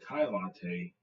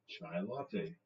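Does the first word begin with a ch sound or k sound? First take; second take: k sound; ch sound. First: The first word begins with a k sound. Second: The first word begins with a ch sound. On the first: This is how other people say it. "they say Kai latte" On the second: This is how the speaker says it. "I would call it chai latte"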